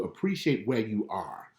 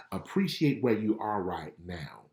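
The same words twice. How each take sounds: First: Slow, weighty appreciate; slow emphasis. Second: Slow whisper on Appreciate. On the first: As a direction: lean on appreciate. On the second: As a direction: breathe it out as a secret. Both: Shown as a demonstration.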